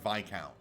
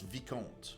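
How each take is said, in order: First: It is said the English way. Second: It is said the speaker's native way. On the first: This is how English speakers say it. The speaker calls it wrong. "not Viscount" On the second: This is how the speaker's own language says it. The speaker calls it right. "we pronounce Vicomte"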